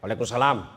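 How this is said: It is said in a firm, businesslike voice.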